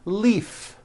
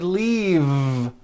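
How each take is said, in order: First: The final consonant is an unvoiced F sound. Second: The final consonant is a voiced V sound. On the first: The speaker calls it wrong. "not leaf with an unvoiced F" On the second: The speaker calls it right. "with a voiced V sound"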